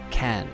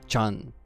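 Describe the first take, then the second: First: The word begins with a hard 'k' sound. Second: The word begins with a 'ch' sound. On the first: The speaker calls it wrong. "it's not can" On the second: The speaker calls it right. "it's Chan, like Neon Chan"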